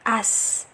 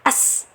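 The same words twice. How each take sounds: First: The sound flows on with voice and breath. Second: The sound is held back and cut short. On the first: The speaker calls it right. "sifat rokhawahnya dialirkan ya suaranya" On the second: The speaker calls it wrong. "jangan as, as. Nah, jangan ditahan"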